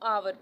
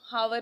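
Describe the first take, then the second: First: The word begins with a vowel sound. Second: The word begins with an h sound. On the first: The speaker calls it right. "इसको आवर पढ़ना है" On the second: The speaker calls it wrong. "हावर नहीं इसको पढ़ना"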